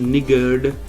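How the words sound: The r sound is left out. This is how British people say it. "दूसरी pronunciation में हम निगर्ड आर pronounce नहीं करते"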